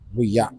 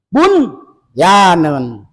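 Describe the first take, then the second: First: The n sound merges into the following y. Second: The n sound is pronounced clearly before y. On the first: The speaker calls it wrong. "Jangan dibaca buya" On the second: The speaker calls it right. "Di sini tetap diidharkan"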